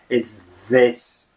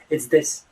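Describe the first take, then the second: First: The th is a clear th. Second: The th is closer to a soft d. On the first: The speaker calls it wrong. "Nobody really says" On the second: The speaker calls it right. "People say"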